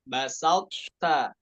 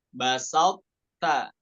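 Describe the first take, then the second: No difference in how they are said.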